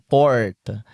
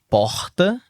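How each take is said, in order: First: The R is curled back, English-like. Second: The R is made in the throat. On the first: It is how people from the countryside speak. "o R do cara do interior" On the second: It is how people from Rio speak. "tem o R do carioca, que é o R na garganta"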